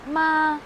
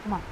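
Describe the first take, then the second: First: It is said in the first tone. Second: It is said in the light neutral tone. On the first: It means mother. "First tone" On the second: It marks a question. "fifth tone is ma"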